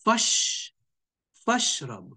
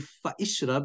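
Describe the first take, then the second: First: The 'i' vowel is dropped, joining fa to shrab. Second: The 'i' vowel of ishrab is pronounced separately. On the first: The speaker calls it right. "you say fashrab" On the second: The speaker calls it wrong. "you don't say fa ishrab"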